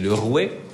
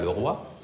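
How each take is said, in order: First: The word ends with a 'weh' sound. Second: The word ends with a 'wah' sound. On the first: This is the old seventeenth-century pronunciation. The speaker calls it right. "Comme on dit le rouet" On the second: This is the modern pronunciation. The speaker calls it wrong. "on ne dit pas le roi"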